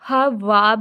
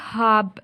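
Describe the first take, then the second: First: The w sound is clearly pronounced. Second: The w sound is left silent. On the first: The speaker calls it wrong. "इसको हम हा वाब नहीं पढ़ेंगे" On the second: The speaker calls it right. "इसको हम पढ़ेंगे हाब, यानी वाव को हम साइलेंट कर लेंगे"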